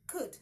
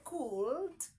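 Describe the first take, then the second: First: The L sound is silent in the word. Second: The L sound is pronounced in the word. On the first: The speaker calls it right. "the L is silent" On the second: The speaker calls it wrong. "No, that is a wrong pronunciation"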